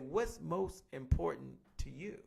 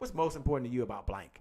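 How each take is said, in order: First: It is said slowly and deliberately. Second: It is said at a normal pace.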